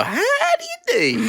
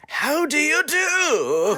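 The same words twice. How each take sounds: First: High, slow, laughing cowboy How do you do; hammed-up cowboy. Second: High and very slow How do you do with a rising end; drawled cowboy greeting. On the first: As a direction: play a goofy cowboy greeting. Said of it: "You could go". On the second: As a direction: stretch the greeting out like a lazy cowboy. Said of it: "Or you can go". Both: Shown as a demonstration.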